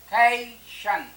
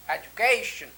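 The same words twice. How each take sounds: First: Slow education split into ए, जु, के, शन; syllable by syllable. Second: Said in the usual way. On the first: Shown as a demonstration. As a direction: pause between all four parts of education. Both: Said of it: "तो यहाँ पर एक".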